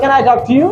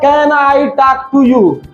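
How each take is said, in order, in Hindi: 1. छोटे शब्द कटे हुए और लगभग बिना ज़ोर के बोले जाते हैं। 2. हर शब्द पूरा और साफ़ बोला जाता है। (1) "टच करके हटा लेना" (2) "पूरा ना बोलना"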